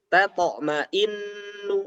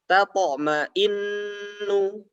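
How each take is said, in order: No difference in how they are said.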